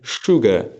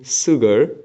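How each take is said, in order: First: The word begins with a thick sh sound. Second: The word begins with a soft s sound. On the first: The speaker calls it right. "say sugar" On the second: The speaker calls it wrong. "Don't say sugar"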